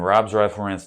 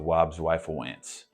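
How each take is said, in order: First: The R sounds are pronounced as normal R. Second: The R sounds are pronounced like W.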